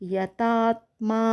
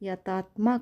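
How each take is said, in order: First: The final vowel is long. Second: The final vowel is short. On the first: The speaker calls it right. "యతాత్మా అనాలి" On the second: The speaker calls it wrong. "యతాత్మ కాదు"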